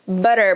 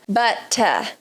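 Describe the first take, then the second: First: The middle T is a quick R-like flap. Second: The middle T is a strong, crisp T. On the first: This is a more American pronunciation. "essa forma que eu falo aqui é o R na ponta da língua" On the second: This is a more British pronunciation. "um T forte, ... pronúncia mais British"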